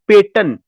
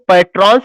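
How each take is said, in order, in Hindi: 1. r की आवाज़ silent रहती है। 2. r की आवाज़ साफ़ बोली जाती है। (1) "आर साइलेंट हो जाएगा" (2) "इसको पैट्रॉन्स नहीं पढ़ा जाता है"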